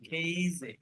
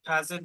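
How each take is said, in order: First: The first vowel is an 'eh' sound. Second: The first vowel is an open 'ah' sound. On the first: The speaker calls it right. "ই নিয়ে আসবেন" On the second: The speaker calls it wrong. "কাজে দিলে হইতেছে না"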